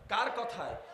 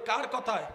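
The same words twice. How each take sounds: First: It is said at normal volume. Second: It is said more loudly.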